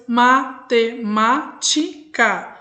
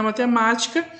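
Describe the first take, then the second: First: "matemática" very slowly broken as ma, te, má, ti, ca; split into five syllables. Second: Said in the usual way. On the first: Shown as a demonstration. Teacher counts syllables for pupils, "matemática" split in five. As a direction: say "matemática" in five separate slow beats. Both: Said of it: "eu separo em cinco sílabas".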